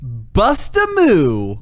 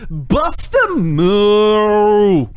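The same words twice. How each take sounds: First: The word moo is said in a plain voice. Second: The word moo is drawn out like a cow.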